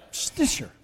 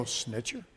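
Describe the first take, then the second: First: SNITCHER burst out like a mock sneeze; sneeze-like surname. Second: Said in the usual way. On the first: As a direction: say "Snitcher" as a sudden, breathy, high-pitched sneeze. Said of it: "that's what it sounds like, doesn't it".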